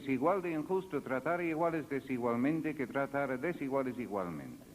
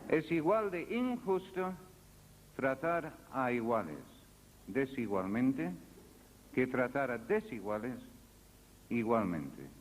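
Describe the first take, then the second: First: It is said at a normal pace. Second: It is said more slowly.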